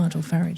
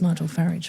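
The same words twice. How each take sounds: First: The surname is said in an English manner. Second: The same.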